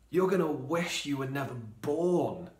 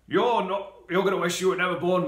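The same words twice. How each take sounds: First: It is said in a sad, sorrowful tone. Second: It is said in an angry, fuming tone. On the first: It is a lament of grief. The speaker calls it right. "Maybe Jesus is sad" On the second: It is a furious threat. The speaker calls it wrong. "Jesus is angry with him"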